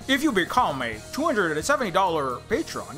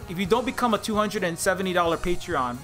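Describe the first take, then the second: First: It is an exaggerated white-man impression. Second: It is a mild white-man impression.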